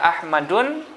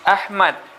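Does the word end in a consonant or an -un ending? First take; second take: -un ending; consonant. First: The word ends with an added -un sound. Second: The word ends without an -un ending. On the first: The speaker calls it wrong. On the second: The speaker calls it right.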